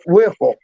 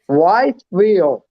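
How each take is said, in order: First: The name is said as Whipple. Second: The name is said as Whiteville. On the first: This is how locals say it. The speaker calls it right. "We call it Whipple. You know, like wiffle ball" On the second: This is how outsiders from the north say it. The speaker calls it wrong.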